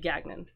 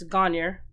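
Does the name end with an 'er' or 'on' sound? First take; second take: on; er. First: The name ends with an 'on' sound. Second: The name ends with an 'er' sound. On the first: This is the pronunciation used further south. "but down here it would be Gagnon" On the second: This is the Northern Maine pronunciation. "because I'm from Northern Maine, ... it's Gagner"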